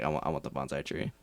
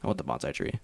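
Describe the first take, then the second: First: Low, soft, flat insistence; deadpan demand. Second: Low, soft, dead-serious demand; deadpan demand. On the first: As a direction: say it dead serious and quiet. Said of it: "I was like". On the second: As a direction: stare him down and say it flatly. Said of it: "looked him dead in the eyes and said". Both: Retold or imitated.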